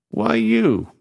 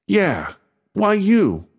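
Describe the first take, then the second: First: Said in the usual way. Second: High, slow, drawn-out doubting ask; suspicious. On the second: A narrator's reading. Maz asking again why Beto, slow and suspicious. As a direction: lean on you with suspicion.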